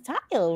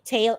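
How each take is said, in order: First: The vowel sounds like 'eye', as in tile. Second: The vowel sounds like 'ay', as in rain. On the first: The speaker calls it wrong. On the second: The speaker calls it right.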